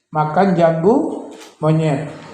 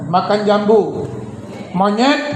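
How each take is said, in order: First: It is said with a plain statement tune. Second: It is said with a Javanese-style tune. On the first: Someone is eating cashew fruit. "Artinya makan jambu monyet, seseorang makan jambu monyet" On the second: The monkey is being told to eat the fruit. "kalau di Jawa nadanya"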